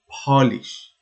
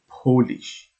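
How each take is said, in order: First: The first vowel sounds like 'ah'. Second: The first vowel sounds like 'oh'. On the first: It means to make something bright. "in another context, we pronounce it Polish" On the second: It refers to people from Poland. "the pronunciation is Polish and means people from Poland"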